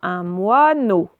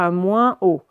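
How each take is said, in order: First: An oral vowel, then n before o. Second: A nasal vowel, then a separate o. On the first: The speaker calls it right. "on va lire un moineau" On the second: The speaker calls it wrong. "et non pas un moins O"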